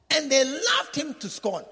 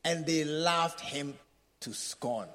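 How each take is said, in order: First: Louder, higher, slow proclamation of the verse; forceful reading. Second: Slow, soft reading of the verse; scripture reading. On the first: Preacher proclaims the verse to the church, slow and loud. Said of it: "rereads the verse forcefully". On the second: Preacher reads the Bible verse to the church, slow and hushed. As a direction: read the verse slowly and quietly. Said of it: "reading the scripture verse". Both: Shown as a demonstration.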